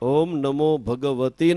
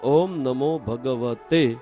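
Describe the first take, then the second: First: The last word ends with a long 'ee' vowel. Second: The last word ends with an 'ay' vowel. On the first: The speaker calls it wrong. "ઘણા લોકો બોલે છે ભગવતી... નહીં" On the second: The speaker calls it right. "સાચો શબ્દ એ છે ભગવતે"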